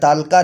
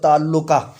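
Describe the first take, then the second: First: It is said in two syllables, no middle syllable. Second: It is said in three syllables with doubled l. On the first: The speaker calls it wrong. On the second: The speaker calls it right.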